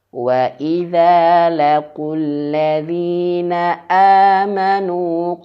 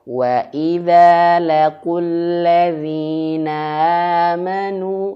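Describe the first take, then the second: First: The glottal stop before amanu is clearly cut. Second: The glottal stop before amanu is slurred over. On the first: The speaker calls it right. "harus nampak jelas terputus suara dan anginnya untuk hamzah" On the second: The speaker calls it wrong. "nggak boleh bacanya"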